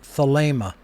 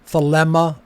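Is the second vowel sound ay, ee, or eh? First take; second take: ay; eh. First: The second vowel is a long ay sound. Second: The second vowel is a short eh sound. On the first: The speaker calls it right. "It is a long A sound" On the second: The speaker calls it wrong. "It is not another epsilon"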